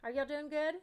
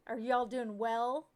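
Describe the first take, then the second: First: Said in the usual way. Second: Slow, louder, overly correct "well"; mock proper. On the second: Shown as a demonstration. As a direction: drag out "well" as if correcting your grammar. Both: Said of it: "one would say properly?".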